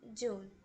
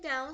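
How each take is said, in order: First: The vowel is a plain 'oo'. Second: The vowel glides like 'ow'. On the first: "down se transforma em dune" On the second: "palavras que se pronuncia com som de A U"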